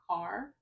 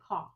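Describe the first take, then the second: First: The word ends with a clear R sound. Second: The word ends without any R sound. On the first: The speaker calls it right. "with an R" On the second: The speaker calls it wrong. "she will say caw"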